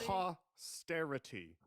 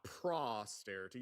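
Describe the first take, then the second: First: The first syllable has no R after P. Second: An R sound follows P in the first syllable. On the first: The speaker calls it right. "It's posterity" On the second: The speaker calls it wrong. "You're putting an R where it doesn't exist"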